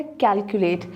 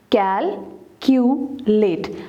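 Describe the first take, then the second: First: Said in the usual way. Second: कैल, Q, लेट as three separate beats; teacher slowly splitting कैल — Q — लेट; syllable by syllable. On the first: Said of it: "calculate के कितने syllables". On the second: Shown as a demonstration. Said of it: "separate the syllables".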